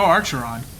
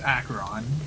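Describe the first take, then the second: First: The name has an added R sound. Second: The name starts without an R sound. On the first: The speaker calls it wrong. "she adds an R" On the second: The speaker calls it right. "Acheron says her name's Acheron to us at first"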